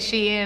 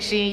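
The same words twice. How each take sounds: First: It is said as two syllables, she-in. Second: It is said as one syllable, like sheen. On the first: The speaker calls it right. "you saying Shein" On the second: The speaker calls it wrong. "I be saying Shein"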